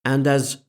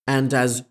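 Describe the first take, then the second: No difference in how they are said.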